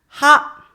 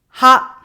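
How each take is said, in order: First: The syllable begins with an h sound. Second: The syllable begins with an h sound.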